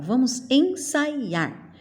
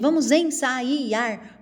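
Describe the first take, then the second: First: The a and i are said as one syllable. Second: The a and i are split into two syllables. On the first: The speaker calls it right. "eu falo, vamos ensaiar" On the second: The speaker calls it wrong. "Não"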